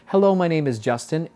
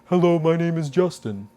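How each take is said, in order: First: It is said in a relaxed, neutral voice. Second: It is said in a dopey, low-larynx voice.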